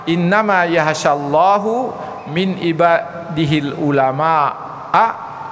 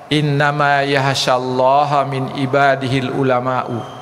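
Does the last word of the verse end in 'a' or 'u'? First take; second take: a; u. First: Allah ends in u, ulama ends in a. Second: Allah ends in a, ulama ends in u. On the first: God fears only the scholars. The speaker calls it wrong. "Allah itu hanya takut kepada ulama" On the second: The scholars are the ones who fear God. The speaker calls it right. "Yang tadi yang pertama itu ulama yang sangat takut kepada Allah"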